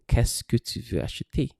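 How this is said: The voice stays low at the end. The speaker calls it right. "your voice at the end is still low"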